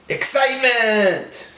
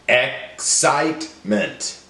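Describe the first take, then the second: First: Said in the usual way. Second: "Excitement" in three separate pieces; broken into syllables. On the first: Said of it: "build it back together". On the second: Shown as a demonstration. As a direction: pause between ex, cite and ment in "Excitement". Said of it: "break down the words into syllables".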